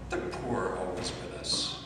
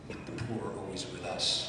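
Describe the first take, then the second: First: The stress falls on the word always. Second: The stress falls on the word with. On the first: Poverty never ends, so helping is pointless. The speaker calls it wrong. "They say that as an escape" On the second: The poor are together with us, not apart. The speaker calls it right. "That's the emphasis that we make"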